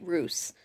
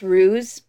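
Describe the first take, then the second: First: The word rhymes with goose. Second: The word does not rhyme with goose. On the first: It is bent to fit a pun. "I'm pronouncing it ruse so that it fits in with my title" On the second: This is the usual pronunciation. "It's pronounced ruse"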